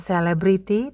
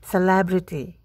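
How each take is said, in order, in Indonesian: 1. Tekanannya tidak pada suku kata kedua. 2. Tekanannya pada suku kata kedua. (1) "bukan celebrity" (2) "Tekanan atau stres jatuh pada suku kata kedua"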